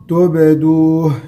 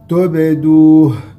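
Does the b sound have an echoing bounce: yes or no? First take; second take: yes; yes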